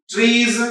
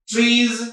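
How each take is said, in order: Both takes have the same delivery.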